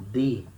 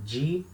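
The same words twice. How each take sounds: First: "D" said as a plain "dee"; hard D sound. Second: "G" said as "djee"; a single "G" syllable with an English j sound; soft Rio sound. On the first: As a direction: tap a clean d in "D", no j sound. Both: Shown as a demonstration. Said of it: "Can you notice the difference?".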